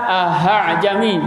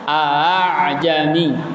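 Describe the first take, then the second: First: The middle sound is a clear h sound. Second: The middle sound is a softened, eased glottal sound. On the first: The speaker calls it wrong. "Jangan dibaca ahajami" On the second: The speaker calls it right. "kalau digabungkan jadi gimana?"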